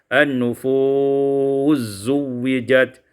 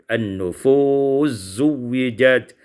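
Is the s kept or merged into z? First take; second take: merged; merged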